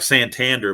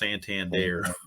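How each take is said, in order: First: The name is read just as it is spelled. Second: The name is said in its native form. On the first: The speaker calls it wrong. "it looks like Santander" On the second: The speaker calls it right. "but it's pronounced Santander"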